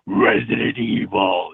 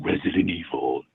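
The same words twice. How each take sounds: First: It is screamed very loudly and forcefully. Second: It is said at a normal talking volume. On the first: "I literally had to scream it" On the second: "level wise, it'd be just like talking basically"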